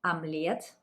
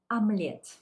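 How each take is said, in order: First: Омлет with the first O said as a, rising tune; Омлет said amlet, lifting at the end; Russian amlet. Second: Омлет said as amlet, louder, dropping at the end; Russian amlet, falling. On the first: Teacher repeating Омлет for the class. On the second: Teacher sounding out омлет for learners. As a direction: close with a firm омлет. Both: Shown as a demonstration. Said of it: "unstressed Russian O's".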